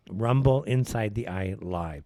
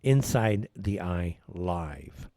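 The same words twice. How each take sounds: First: Channel name said slowly; slow plug. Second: Inside the Eye Live drawn out very slowly; slower repeat. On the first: Host spelling out channel name, slow and deliberate. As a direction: Rumble Inside the Eye Live spelled out slowly. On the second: Host repeating channel name for listeners, very slow. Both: Shown as a demonstration. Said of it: "That's Rumble".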